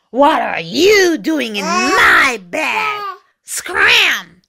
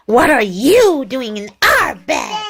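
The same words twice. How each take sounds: First: Slow, growled demand, stressing "my"; growly dog. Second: Mild storybook shout, slowed down; indignant and drawn-out, stressing "our"; angry cats shouting. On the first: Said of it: "a big, deep, growly voice said". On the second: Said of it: "shouted the six angry cats". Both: A narrator's reading.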